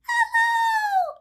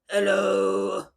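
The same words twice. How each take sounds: First: It is said in a very high voice. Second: It is said in a very low voice.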